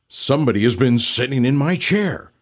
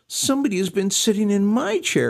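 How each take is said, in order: First: It is said in a deep growl. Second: It is said in a small doleful whine.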